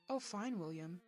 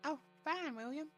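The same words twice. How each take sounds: First: It is read in the narrator's normal voice. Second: It is read in a put-on character voice.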